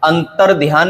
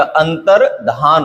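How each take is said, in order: First: अंतर ध्यान with 'dhyaan'; wrong added y. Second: अंतर धान with plain 'dhaan'; no y glide in अंतर धान; correct form, no y. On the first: Teacher rejects a common error, अंतर ध्यान with y. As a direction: put a y glide in अंतर ध्यान. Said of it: "नहीं होता". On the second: Teacher gives the correction, अंतर धान without y. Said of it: "होता है". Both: Shown as a demonstration.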